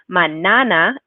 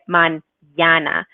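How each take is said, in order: First: The middle consonant is a plain n sound. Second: The middle consonant is an ny sound. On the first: "if we didn't have the tilde" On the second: "this is how we get mañana"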